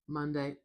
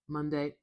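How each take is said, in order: No difference in how they are said.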